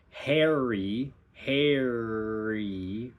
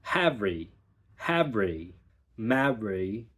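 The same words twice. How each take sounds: First: "hairy" with R through the vowel; R held through the whole vowel; American hairy. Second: "havry" with an open "ha" and a flipped R into the next syllable. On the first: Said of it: "where we have the R for the entire time". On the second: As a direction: flip the R off the tongue. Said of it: "it's that flip of". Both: Shown as a demonstration.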